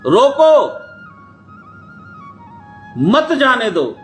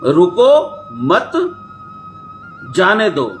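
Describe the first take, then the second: First: The pause comes after the first word. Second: The pause comes after the second word.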